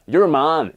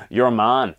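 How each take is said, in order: First: "Your man" in a light Northern Irish accent, a bit louder; hint of a Northern Irish accent on "Your man". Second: Said in the usual way. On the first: Shown as a demonstration. Preacher mimicking his wife's Northern Irish phrase, light Northern Irish accent. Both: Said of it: "Apologies for the accent".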